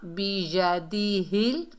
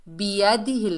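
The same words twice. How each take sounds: First: बियदिहिल drawn out, every syllable clear; correct slow reading. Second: बियदिहिल quick, syllables run together; wrong hurried reading. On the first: Teacher corrects the mistake, slow careful बियदिहिल. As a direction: stretch बियदिहिल, rising at the end. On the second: Teacher warns learners, hurried wrong बियदिहिल. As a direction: rush बियदिहिल with short vowels. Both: Shown as a demonstration. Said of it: "नहीं पढ़ना".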